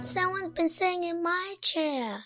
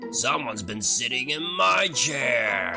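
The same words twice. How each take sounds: First: It is squeaked in a high Baby Bear voice. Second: It is roared in a booming Daddy Bear voice.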